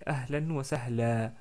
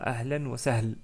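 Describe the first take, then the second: First: The last word ends in a long 'a' vowel. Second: The last word ends on a bare 'l' consonant. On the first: The speaker calls it right. "on s'arrête avec un prolongement de fatha. Donc on dit ahlan wa sahla" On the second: The speaker calls it wrong. "On ne dit pas ahlan wa sahl"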